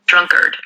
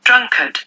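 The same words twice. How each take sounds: First: It is said in a drawn-out American accent. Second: It is said in a British accent. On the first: "American pronunciation එකෙන් කියනකොට ඔයා ටිකක් ඒක ඇදලා කියනවා" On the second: "British pronunciation එකෙන් කියනවා නම්"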